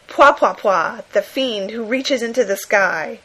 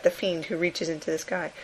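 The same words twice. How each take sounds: First: Louder, excited announcer read of the cover title; breathless comic-book read. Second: Said in the usual way. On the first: Retold or imitated. Podcaster reading a monster comic cover, excited. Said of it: "completely breathless style". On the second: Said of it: "everybody says his name like that".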